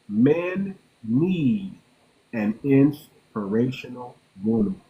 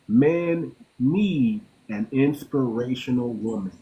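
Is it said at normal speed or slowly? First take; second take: slowly; normal speed. First: It is said slowly and deliberately. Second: It is said at a normal speed.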